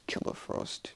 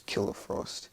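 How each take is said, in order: First: Soft mumble of an attack name; acted quiet incantation; mumbled under breath. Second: Said in the usual way. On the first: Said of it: "she just mumbles under her breath". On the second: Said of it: "she doesn't mumble, she just says".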